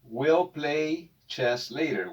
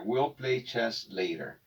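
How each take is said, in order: First: Will play chess later said slowly and clearly; teacher models "will play chess later" slowly for students; slow model English. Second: Said in the usual way. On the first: Shown as a demonstration. Teacher to Spanish-speaking students, slow clear model sentence. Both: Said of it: "y se pronuncia will".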